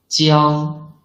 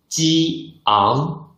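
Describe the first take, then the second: First: "jiang" blended into one smooth syllable, no break; one syllable, no pause. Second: "ji ang" as two syllables, a clear break between ji and ang; clear pause between syllables. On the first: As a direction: glide "jiang" straight through as a single sound. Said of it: "there can be no pause in the middle". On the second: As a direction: split "ji ang" with a distinct pause in the middle. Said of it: "there must be a clear pause in the middle". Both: Shown as a demonstration.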